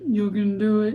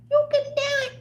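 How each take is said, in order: First: Low put-on voice; toned-out voice. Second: Very high squeaky put-on voice; toned-in voice. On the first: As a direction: drop it down low, playfully. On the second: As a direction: pitch it way up, playfully. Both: Shown as a demonstration. Shows toning voice in and out.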